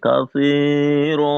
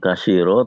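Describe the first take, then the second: First: The middle consonant is a th sound. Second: The middle consonant is a plain s sound. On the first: The speaker calls it right. "tapi katsira" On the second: The speaker calls it wrong. "Bukan kasiro"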